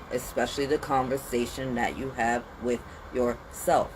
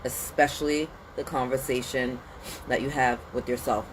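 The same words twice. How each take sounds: First: Said in the usual way. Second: "Especially" leaned on, then a pause before "that you have with yourself"; stressed repeat. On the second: Shown as a demonstration.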